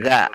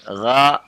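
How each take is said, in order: First: The consonant is light like a plain g. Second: The consonant is heavy and made deep in throat. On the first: The speaker calls it wrong. "Jangan dibaca ga ya" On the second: The speaker calls it right. "gha bukan ga ya, itu tebal ya"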